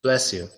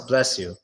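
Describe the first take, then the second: First: It has a very soft, quick sh sound. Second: It has a very soft, quick sh sound.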